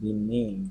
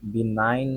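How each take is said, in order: First: The second vowel sounds like 'ee'. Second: The second vowel sounds like 'eye'. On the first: "বিনাইন না বিনিন" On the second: "বিনাইন না বিনিন"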